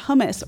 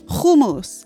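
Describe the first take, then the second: First: It is said with an ordinary English pronunciation. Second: It is said with an Israeli pronunciation.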